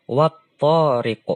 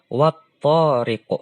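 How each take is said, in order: First: The l is merged into the following t sound. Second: The l is merged into the following t sound.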